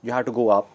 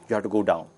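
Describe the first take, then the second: First: A small step up; going up. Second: Lower, softer, falling voice; going down. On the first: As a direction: voice lifted slightly above the following take. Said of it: "traits like volume". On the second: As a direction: drop the voice down low. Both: Shown as a demonstration.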